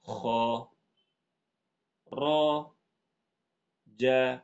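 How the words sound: Each syllable is said fully separately. "ini bacanya satu-satu kan?"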